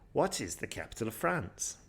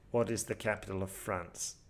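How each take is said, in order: First: The voice rises toward the end of the question. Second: The voice stays flat throughout the question. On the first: The speaker calls it right. "a better way would be, ... We go up at the end or towards the end" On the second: The speaker calls it wrong. "There's no intonation there"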